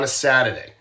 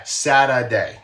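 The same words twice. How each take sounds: First: Said in the usual way. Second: "Saturday" said slowly as "Saddaday", no R sound; Boston-style Saturday. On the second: Shown as a demonstration. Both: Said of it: "There's no R in there".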